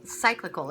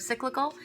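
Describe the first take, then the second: First: Cyclical with a long SIGH first syllable, falling; unsure pronunciation. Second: Cyclical? with a short SICK first syllable, rising high; questioning pronunciation. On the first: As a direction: say cyclical as SIGH-kli-kul, settling down at the end. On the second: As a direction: ask Cyclical? as SICK-li-kul, pitch lifting at the end. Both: Shown as a demonstration. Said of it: "Is that the word?".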